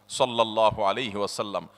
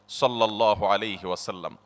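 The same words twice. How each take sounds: No difference in how they are said.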